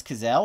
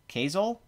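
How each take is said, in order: First: Cazale as kuh-ZELL, stress on the end; stress on second syllable. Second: Cazale as KAY-zul, stress up front; stress on first syllable. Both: Shown as a demonstration. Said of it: "not quite sure how it's pronounced".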